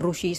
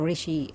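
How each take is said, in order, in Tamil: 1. முதல் அசையில் 'u' உயிர் உள்ளது. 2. முதல் அசையில் 'i' உயிர் உள்ளது. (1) "அந்த இடத்துல நம்ம ருஷி சொல்ல மாட்டோம்" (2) "ரிஷி அப்படிம்போம்"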